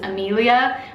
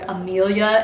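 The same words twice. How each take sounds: First: Every syllable of the name is clearly pronounced. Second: One syllable of the name is cut off. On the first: The speaker calls it right. "where you say all of the syllables" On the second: The speaker calls it wrong. "they kind of cut off a syllable"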